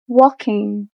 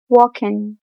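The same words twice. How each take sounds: First: The word ends with a full ng sound. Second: The word ends with a plain n sound. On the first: It sounds like middle-class, more standard speech. "middle class says" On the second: It sounds like working-class, less standard speech. "working class says"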